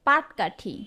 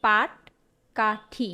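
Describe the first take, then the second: First: পাটকাঠি as the non-standard regional form; dialect word. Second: পাটকাঠি very slowly, syllable by syllable; standard pronunciation. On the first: Teacher reads out a word that is not standard, dialect pronunciation. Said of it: "শব্দটির প্রমিত রূপ কি?". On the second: Teacher shows students the standard form, slow careful pronunciation. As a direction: stretch out পাট, কা, ঠি with a clear ট. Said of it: "ট হবে". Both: Shown as a demonstration.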